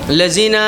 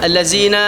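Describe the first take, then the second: No difference in how they are said.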